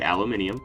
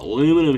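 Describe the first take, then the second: First: The word is said with five syllables. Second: The word is said with four syllables. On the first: This is how some other speakers say it. "Some people say aluminium. I think that's its proper pronunciation" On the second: This is how it is said in the States. "We call it aluminum here in the States"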